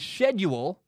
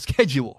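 First: It is said with a British pronunciation. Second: It is said with an American pronunciation. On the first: "they say schedule" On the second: "instead of schedule"

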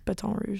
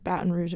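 First: It is said with a French pronunciation. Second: It is said with an American pronunciation.

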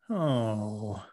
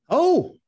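First: It is said in a sad way. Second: It is said in a happy way.

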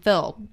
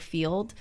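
First: It is said in a strong Southern twangy accent. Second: It is said in a neutral, less twangy accent. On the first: "I used to say oil and filled" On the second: "if I were to say the word oil or field"

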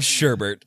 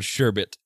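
First: The second syllable has an added r sound. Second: The second syllable has no r sound. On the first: The speaker calls it wrong. "it's not called Sherbert" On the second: The speaker calls it right. "It's called Sherbet"

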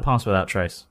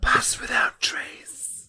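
First: It is said in a Toast Face voice. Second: It is said in a creepy voice.

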